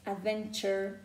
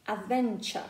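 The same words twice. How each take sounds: First: American accent. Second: British "adventure", open schwa at the end, no R; British accent. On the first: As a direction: say "adventure" with an American R-coloured schwa. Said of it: "American speakers make this phoneme". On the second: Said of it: "in British accent, it will be". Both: Shown as a demonstration.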